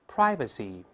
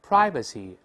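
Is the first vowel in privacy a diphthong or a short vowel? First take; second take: diphthong; diphthong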